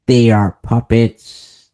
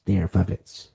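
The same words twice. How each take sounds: First: "They are puppets" slow and loud, each word hit; stressed slowly. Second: "They are puppets" softer, dropped low; quiet repeat. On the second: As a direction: let "They are puppets" fall away. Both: Shown as a demonstration.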